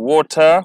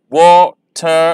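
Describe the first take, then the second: First: Said in the usual way. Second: "water" stretched as wa-ter; slow syllables. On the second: Shown as a demonstration. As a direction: lay out "water" in two beats. ("water" धीरे, दो हिस्सों में) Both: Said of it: "इन्हें मैं slowly pronounce करूँगा".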